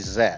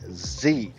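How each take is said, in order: First: The letter is said the non-American way. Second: The letter is said the American way. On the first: "We don't say Z" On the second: "here in the States we say Z"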